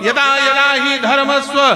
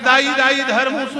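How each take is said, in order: First: It begins with a clear 'yada yada'. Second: It begins with a garbled 'dai dai'. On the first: The speaker calls it right. "ये वाला श्लोक है, इसको बोलो।" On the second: The speaker calls it wrong. "उसने कहा दाई दाई धर्मस्व। मैं कहा बंठाधार हो"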